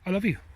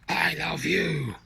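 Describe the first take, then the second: First: It is said quickly and offhandedly. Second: It is said angrily through gritted teeth.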